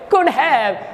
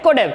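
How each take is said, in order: First: 'Have' is said in full with 'h'. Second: 'Have' is reduced to a weak 'av'.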